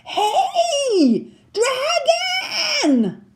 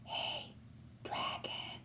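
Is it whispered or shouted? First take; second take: shouted; whispered. First: It is shouted very loudly. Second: It is whispered very softly.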